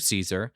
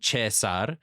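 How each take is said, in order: First: It is said with an English pronunciation. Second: It is said with an Italian pronunciation. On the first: "The British would say his name the same way that Americans do" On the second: "Some Italians would call him Cesar"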